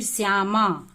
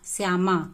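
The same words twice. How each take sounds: First: श्यामा with the final आ drawn out long and slow; stretched vowel. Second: Said in the usual way. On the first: Shown as a demonstration. Teacher showing how the आ in श्यामा is stretched long. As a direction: pull out the आ of श्यामा as if calling. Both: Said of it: "इसको लंबा खींचते हैं".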